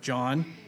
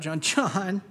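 First: The name is said in a stern tone. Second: The name is said in an amused tone. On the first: She is warning him to do something or else. "you better do this or I'll beat you to death with a doorknob and a tube sock. You know what I mean? If you're married, you know that voice" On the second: She finds him funny and is teasing him. "Or there's like the laughing, shut up"

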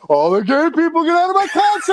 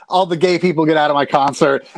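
First: It is said loud and hyped, like crowd banter. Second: It is said plainly, like a flat statement. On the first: It is meant as playful crowd banter. "saying it like" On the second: It is meant as a real order. "just saying"

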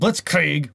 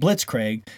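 First: The word is said with a German pronunciation. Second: The word is said with an English pronunciation. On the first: The speaker calls it right. "which I guess is the proper pronunciation, is German" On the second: The speaker calls it wrong. "I called them Blitzkrieg"

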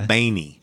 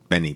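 First: The name is said like Baney. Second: The name is said like Benny. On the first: This is how relatives in California say it. "my California cousins say Baney" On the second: This is the speaker's own everyday form. "that's how I say it"

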